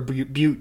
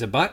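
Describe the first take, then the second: First: The vowel is a long U sound. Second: The vowel is a short U sound. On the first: "I prefer a butte too" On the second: "if it's a butt"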